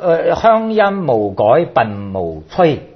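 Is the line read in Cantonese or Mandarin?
Cantonese. It is read in Cantonese.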